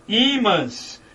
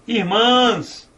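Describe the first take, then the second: First: "imãs" with a long, stressed opening "i"; "imãs" stressed at the start, Í-mãs; stress on first syllable. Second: "Irmãs" with a long, stressed final "mãs"; "Irmãs" stressed at the end, ir-MÃS; stress on last syllable. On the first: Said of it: "imãs é acentuado". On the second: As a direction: lean on the second syllable of "Irmãs". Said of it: "Oxítona". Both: Shown as a demonstration.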